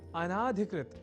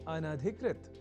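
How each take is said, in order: First: The vowel after the 'n' is long. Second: The vowel after the 'n' is short. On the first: The speaker calls it wrong. "अनाधिकृत इस रूप में न केवल लिखने की ही अपितु बोलने की भी प्रवृत्ति या कुप्रवृत्ति बढ़ गई है" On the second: The speaker calls it right. "और वह शब्द है अनधिकृत"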